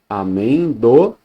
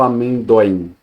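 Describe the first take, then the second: First: The o and i fall in separate syllables. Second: The o and i blend into one syllable. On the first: The speaker calls it right. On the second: The speaker calls it wrong.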